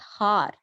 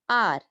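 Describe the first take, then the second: First: The word begins with an H sound. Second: The word begins with a vowel sound. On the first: The speaker calls it wrong. "not har" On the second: The speaker calls it right. "H is silent here"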